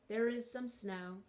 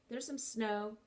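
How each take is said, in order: First: It is said slowly, with the verb said fully. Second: It is said fast, with the verb run together.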